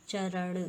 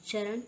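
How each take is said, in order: First: चरण ending in retroflex ṇ; correct pronunciation. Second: चरण ending in plain n, charan; wrong pronunciation. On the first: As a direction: curl the tongue back on the n of चरण. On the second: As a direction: dental n closing चरण. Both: Shown as a demonstration. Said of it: "न और ण की अशुद्धियाँ".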